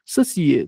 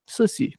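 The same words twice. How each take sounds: First: "Sacier" said slowly in the French way, ending on a clear "-ie"; French pronunciation. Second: "Saci" said the Brazilian way, two syllables "so-si"; Brazilian pronunciation. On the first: Teacher giving students the original French form, slow and deliberate. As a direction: stretch out "Sacier" carefully, French style, stress on the last syllable. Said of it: "na verdade, ali do francês, o certo é Sacier". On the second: Teacher contrasting the Brazilian form with the French one, light and quick. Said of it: "no Brasil, a gente fala Saci". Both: Shown as a demonstration.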